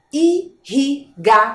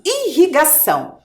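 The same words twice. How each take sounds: First: "Irrigação" slowly split as i, rri, ga, ção; syllable by syllable. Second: Said in the usual way. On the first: Shown as a demonstration. Teacher as the word appears for children, syllable by syllable. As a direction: sound out "Irrigação" with a pause between each syllable. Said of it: "Olhem lá a palavra aparecendo". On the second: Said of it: "Estão vendo?".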